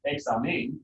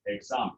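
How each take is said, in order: First: "examen" wrongly stressed at the end, exa-MEN, pitch jumping up; stress on wrong syllable. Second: "examen" as ex-A-men, falling away after the A; stress on second-to-last syllable. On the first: Teacher showing how it's not said, stress on MEN. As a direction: hit and raise the MEN of "examen". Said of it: "this one would not be". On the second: Teacher giving the correct version, stress on the A. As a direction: stress the A in "examen", drop the ending. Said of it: "It's gonna be examen". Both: Shown as a demonstration.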